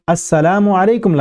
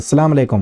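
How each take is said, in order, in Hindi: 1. यह अभिवादन पूरा कहा जाता है, हर आवाज़ साफ़ सुनाई देती है। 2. यह अभिवादन छोटा करके कहा जाता है, कुछ आवाज़ें निगल ली जाती हैं। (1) "लफ्ज है पूरा" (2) "इस तरह नहीं करना"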